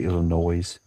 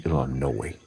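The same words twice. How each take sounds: First: ILLINOIS with a sounded S, a final z. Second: ILLINOIS with a silent S, ending "-noy"; Illinois without the S. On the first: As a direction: end ILLINOIS on a buzzing "noise". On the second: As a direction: end ILLINOIS on an open oy. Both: Shown as a demonstration. Contrasts two pronunciations.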